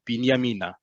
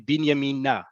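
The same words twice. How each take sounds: First: The stress falls before the last syllable. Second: The stress falls on the last syllable. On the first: This is the everyday pronunciation. "Normally, when we're in Israel, ... we say it like that" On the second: This is how train announcements say it. "put the emphasis on that last syllable"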